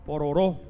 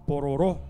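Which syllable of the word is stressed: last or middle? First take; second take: last; last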